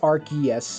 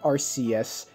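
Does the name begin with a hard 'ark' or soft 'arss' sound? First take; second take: hard ark; soft arss. First: The name begins with a hard k sound. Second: The name begins with a soft s sound. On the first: The speaker calls it right. "it's pronounced Arceus" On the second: The speaker calls it wrong. "not Arceus"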